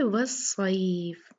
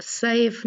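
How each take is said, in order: First: वस्सैफ drawn out slowly as was-saif; slow was-saif, softly; correct recitation. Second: सैफ clipped short as saf, the wrong way; quick flat saf, no ai glide; wrong reading. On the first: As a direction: stretch वस्सैफ with a clear ai glide. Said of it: "ये क्या है?". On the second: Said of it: "सैफ नहीं है". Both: Shown as a demonstration.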